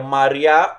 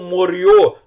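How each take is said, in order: First: The first vowel sounds like 'a'. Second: The first vowel sounds like 'o'. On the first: This is the eastern pronunciation. "depende se a pronúncia é, ocident, é oriental ou ocidental" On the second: This is the western pronunciation. "depende se a pronúncia é, ocident, é oriental ou ocidental"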